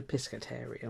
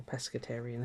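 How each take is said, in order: First: "pescatarian" said with a short i, as pis-; "pescatarian" with first vowel as in "pit"; first pronunciation variant. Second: "pescatarian" said with a short e, as pes-; "pescatarian" with first vowel as in "pet"; second pronunciation variant. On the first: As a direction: say "pescatarian" starting like "piss-ca". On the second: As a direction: say "pescatarian" starting like "pess-ca". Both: Shown as a demonstration. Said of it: "however they pronounce it".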